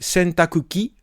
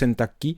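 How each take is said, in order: First: The middle 'ku' syllable is fully pronounced. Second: The middle 'ku' syllable is dropped.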